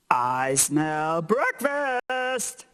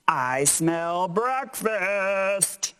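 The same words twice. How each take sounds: First: "I smell breakfast" slow and bigger. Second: Said in the usual way. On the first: Shown as a demonstration. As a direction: boom it out for the capitals. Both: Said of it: "make your voice a little bigger".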